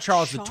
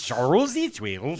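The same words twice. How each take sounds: First: It is said in a plain English accent. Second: It is said in a mock Swedish accent.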